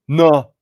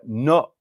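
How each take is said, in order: First: The final T is dropped completely. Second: The final T is cut off by a tongue stop. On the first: The speaker calls it wrong. "You don't just go no no at all" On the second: The speaker calls it right. "you have to stop the sound with the back of your tongue"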